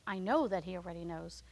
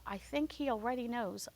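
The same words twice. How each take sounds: First: "know" weighted, firm and low; stress on know. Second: Said in the usual way. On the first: Shown as a demonstration. Preacher correcting himself, stressing "know". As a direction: land firmly on the word "know".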